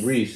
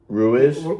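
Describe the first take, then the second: First: The name is said as Reese. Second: The name is said as Ruiz. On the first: This is how it was said in Maryland. "That's how they pronounced it back in Maryland" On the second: This is how it is said in another place. "Ruiz was how we say it in"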